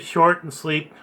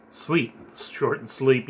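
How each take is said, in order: First: Said in the usual way. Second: "sweet" said slowly and carefully as the fix; fixing "sleep" to "sweet" in a slower, softer voice; slow self-correction. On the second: Real, not acted. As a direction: correct the slip, landing on "sweet".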